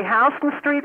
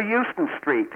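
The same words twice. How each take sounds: First: "Houston" said as HOW-stən; first syllable of "Houston" like "house"; HOW-ston pronunciation. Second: "Euston" said as YOO-stən; first syllable of "Euston" like "you"; YOO-ston pronunciation. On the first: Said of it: "do you say Houston Street". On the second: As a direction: say "Euston" opening with a YOO sound. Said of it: "or Euston Street". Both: Shown as a demonstration.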